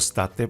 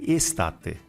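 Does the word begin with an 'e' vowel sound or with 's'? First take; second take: s; e vowel. First: The word starts directly with an s sound. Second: The word starts with an e vowel sound. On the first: The speaker calls it wrong. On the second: The speaker calls it right.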